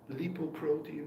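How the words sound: It is said with a German pronunciation. The speaker calls it wrong. "so engraved in my head from my German uh, background"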